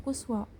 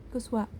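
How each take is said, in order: Both takes have the same delivery.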